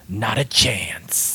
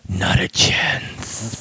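First: It is said in his normal voice. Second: It is said in a put-on lizard voice.

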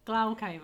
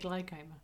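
First: The word is sounded without a y-like glide. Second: The word is sounded with a y-like glide. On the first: "you say glaucoma" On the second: "I say glaucoma"

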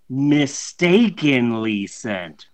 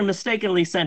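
First: The phrase is said with a sarcastic, air-quote tone. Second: The phrase is said plainly and sincerely. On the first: It was not really a mistake. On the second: It really was a mistake.

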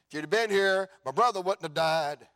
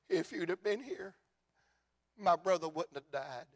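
First: It is said in an accusing tone. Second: It is said in a weeping, sorrowful tone.

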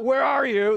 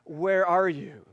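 First: It is said in a harsh, accusing tone. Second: It is said in a warm, loving tone.

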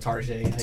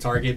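First: The word ends in a French-style 'zhay' sound. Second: The word ends in a plain English 't' sound. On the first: "but Tarjay" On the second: "those people that say Target"

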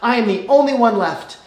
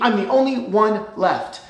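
First: It is read in a plain, neutral tone. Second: It is said in a whiny, self-pitying tone.

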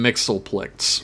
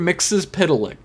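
First: The name is said with three syllables. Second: The name is said with five syllables. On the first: The speaker calls it wrong. "I always called him Mixelplex when I was younger" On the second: The speaker calls it right. "they call him Mr. Mixes Piddalick"

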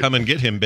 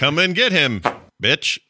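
First: It runs straight into 'bitch' without a pause. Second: There is a clear pause before 'bitch'.

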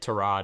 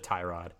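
First: The first syllable has a short vowel, not 'tie'. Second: The first syllable sounds like the word 'tie'. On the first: The speaker calls it right. "it's actually like Tyrod" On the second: The speaker calls it wrong. "it's not like Ty"

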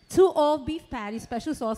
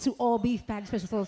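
First: The phrase is said slowly. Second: The phrase is said very quickly.

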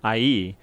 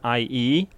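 First: The opening vowel sound is said once. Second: The opening vowel sound is said once.

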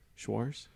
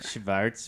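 First: A w-like sound follows the sh sound. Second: A v sound follows the sh sound. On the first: The speaker calls it wrong. "You're super close" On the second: The speaker calls it right. "add a V into that"

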